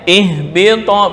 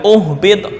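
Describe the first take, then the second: First: The word begins with an i vowel. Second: The word begins with a u vowel. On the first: The speaker calls it right. "Mengulangnya ihbito bisalamin minna" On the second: The speaker calls it wrong. "bukan uhbit, enggak"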